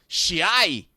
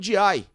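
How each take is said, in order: First: The name is said in a Buenos Aires accent. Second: The name is said in a plain Brazilian way.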